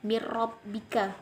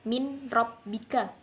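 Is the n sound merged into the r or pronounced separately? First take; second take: merged; separately. First: The n merges into the r without nasal sound. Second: The n is pronounced separately before the r. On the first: The speaker calls it right. "Jadi cara membacanya yaitu mir rabbika" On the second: The speaker calls it wrong. "tidak boleh dibaca min rabbika"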